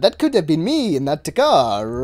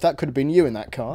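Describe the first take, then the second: First: It is said in a put-on Italian accent. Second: It is said without an Italian accent.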